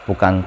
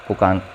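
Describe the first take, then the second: The two takes are said the same way.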